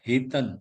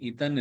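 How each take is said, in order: First: The word starts with a clear h sound. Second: The word starts with a vowel, no h sound. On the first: The speaker calls it right. "ஹ ஹிதன்" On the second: The speaker calls it wrong. "இதன் இல்ல"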